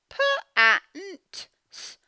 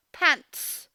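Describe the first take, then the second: First: Pants sounded letter by letter, higher; sounding out pants. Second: Pants said whole, t crisp at the end; blended pants. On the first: Teacher sounding out pants for children, sound by sound. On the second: Teacher blending the word pants for the class. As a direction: blend the sounds back into pants. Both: Shown as a demonstration. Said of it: "It's difficult to hear that t".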